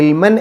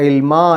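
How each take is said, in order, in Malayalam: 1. ഈ വാക്ക് n ശബ്ദത്തിലാണ് അവസാനിക്കുന്നത്. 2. ഈ വാക്ക് ദീർഘ 'a' സ്വരത്തിലാണ് അവസാനിക്കുന്നത്. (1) "ഇൽമൻ എന്നല്ല പറയാം" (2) "ഇൽമ എന്ന് പറഞ്ഞിട്ടാണ് അവിടെ പാരായണം നിർത്തുക"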